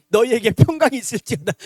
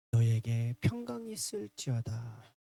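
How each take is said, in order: First: Loud, booming mock blessing; sudden apparition. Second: Low, soft, slow blessing; gentle blessing. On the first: Sudden visitor at a family memorial rite, loud mock blessing. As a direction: burst in with a comically loud blessing. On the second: Retold or imitated. Jesus arriving among his disciples, gentle blessing. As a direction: bestow peace unhurriedly. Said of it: "예수님이 딱 오셔가지고".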